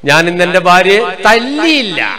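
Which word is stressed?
തല്ലിയില്ല. The last word, തല്ലിയില്ല, is stressed. She was dealt a blow in another way. "അർത്ഥം എന്നാ കൊടുത്തു"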